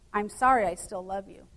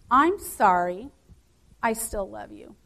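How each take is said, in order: First: There is no pause after "sorry". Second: There is a pause after "sorry".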